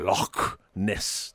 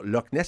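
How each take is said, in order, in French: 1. Le 'ch' est un son rauque qui vient de la gorge. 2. Le 'ch' est un son simple, qui ne vient pas de la gorge. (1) "eux, on va dire Loch Ness" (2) "nous autres, on va dire Loch Ness"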